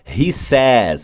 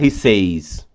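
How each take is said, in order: First: The vowel in says is a short 'eh' sound. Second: The vowel in says is a long 'ay' sound. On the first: The speaker calls it right. "Vai ser he says" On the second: The speaker calls it wrong. "eu não vou falar he says, que não é português"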